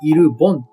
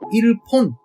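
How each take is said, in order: First: The second syllable starts with a voiced b. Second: The second syllable starts with a voiceless p. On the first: The speaker calls it right. "イルボンと濁る音に聞こえるんです" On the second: The speaker calls it wrong. "イルポンではなく"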